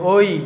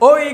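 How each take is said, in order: First: It is said plainly at a normal volume. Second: It is called out loudly, like hailing someone. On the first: The speaker calls it right. "স্বাভাবিক বলতে হবে ওই" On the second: The speaker calls it wrong. "এটাকে ওই করে ডাক মারছে, এরকম ডাক মারা যাবে না"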